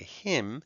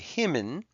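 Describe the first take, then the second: First: The final letter is silent, one syllable only. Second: The final letter is sounded with an extra syllable. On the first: The speaker calls it right. "we say him" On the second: The speaker calls it wrong. "we don't say himmin"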